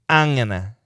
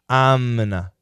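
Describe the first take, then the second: First: It is said quickest and most reduced. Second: It is said quicker and more reduced. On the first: "And we can say it faster, more reduction" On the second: "we can say it faster, more reduction"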